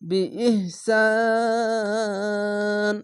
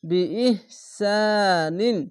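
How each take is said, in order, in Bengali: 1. শেষ ব্যঞ্জনের পরে শব্দটি থেমে যায়। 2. শব্দটি পূর্ণ -in ধ্বনি দিয়ে শেষ হয়।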